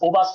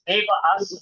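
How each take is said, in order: First: The word begins with an 'o' vowel sound. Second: The word begins with an 'e' vowel sound. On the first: The speaker calls it wrong. "ओ बास नहीं" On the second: The speaker calls it right.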